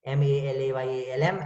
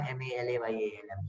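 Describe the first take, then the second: First: "M A L A Y A L M" spelled letter by letter, rising at the end; first spelling of the palindrome. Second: "M A L A Y A L M" spelled back quieter and lower; echoing spelling, backwards; spelled palindrome, softer. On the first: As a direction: spell "M A L A Y A L M" clearly, lifting the last letter. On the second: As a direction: spell "M A L A Y A L M" again, dropping the voice. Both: Shown as a demonstration. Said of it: "Something like Malayalam".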